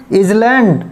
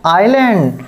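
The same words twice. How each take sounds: First: "इसलैंड" with the s sounded; wrong pronunciation. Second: "आइलैंड" with a silent s; correct pronunciation. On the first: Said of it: "wrong pronunciation में". ("इसलैंड" गलत उच्चारण, s बोलकर) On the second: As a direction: say "आइलैंड" with no s, the right way. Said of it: "right pronunciation करना है". ("आइलैंड" सही उच्चारण, s मौन) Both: Shown as a demonstration.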